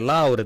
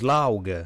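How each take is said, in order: First: The word is said with an R sound. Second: The R sound is replaced by a G sound.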